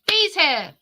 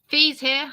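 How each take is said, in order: First: It is said in a lively, excited way. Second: It is said in a flat, unexcited way.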